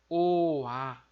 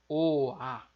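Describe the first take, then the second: The two takes are said the same way.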